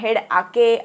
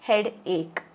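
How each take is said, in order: First: The second part is read as ah-kay. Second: The second part is said as ache. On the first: The speaker calls it wrong. "असं काही वाचायचं नाही आहे" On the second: The speaker calls it right. "It is head एक"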